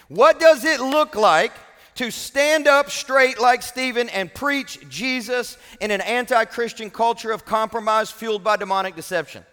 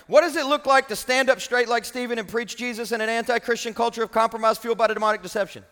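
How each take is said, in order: First: It is read at a slow pace. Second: It is read at a fast pace.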